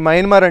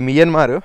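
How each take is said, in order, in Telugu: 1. మొదటి అక్షరం 'my' లా వినిపిస్తుంది. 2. మొదటి అక్షరం 'me' లా వినిపిస్తుంది. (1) "చాలామంది మన ఇండియన్స్ దీన్ని మయన్మార్ అంటారండి" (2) "యాక్చువల్గా ఇది మియన్మారు"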